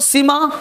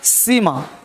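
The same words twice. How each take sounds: First: The first vowel is said short. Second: The first vowel is said long. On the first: "short हो गया" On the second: "लंबा हो गया"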